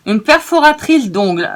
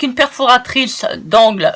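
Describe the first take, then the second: First: "perforatrice d'ongles" said with a nail sound, "ongles", stressed and amused; wrong word, laughing. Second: "perforatrice d'angle" with "angle" said clearly as corrected; corrected word. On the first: Crafter catching her own slip for viewers, amused "d'ongles". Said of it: "je rigole de moi-même". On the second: Crafter correcting her slip for viewers, careful "d'angle". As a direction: say "d'angle" carefully, setting it right. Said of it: "Excusez-moi, je rigole de moi-même". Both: Shown as a demonstration.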